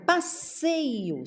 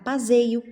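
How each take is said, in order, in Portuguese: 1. A consoante do meio é um S sibilante. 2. A consoante do meio é um Z sonoro.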